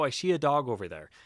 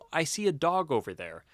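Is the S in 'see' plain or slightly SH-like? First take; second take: SH-like; plain. First: See starts with a slight SH sound. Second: See starts with a plain S sound. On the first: The speaker calls it wrong. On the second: The speaker calls it right.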